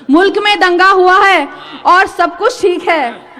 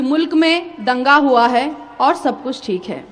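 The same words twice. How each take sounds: First: Higher, louder declaimed ghazal line; ringing, rhythmic Urdu recitation; poetry recital. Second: Said in the usual way. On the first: Acted. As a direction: project it as mushaira verse. Recites the same line as verse.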